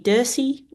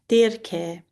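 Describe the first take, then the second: First: The name is pronounced the English way. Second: The name is pronounced the ancient Greek way. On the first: "I think that might be Dirce um, in English" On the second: "In the Attic Greek is Dirke"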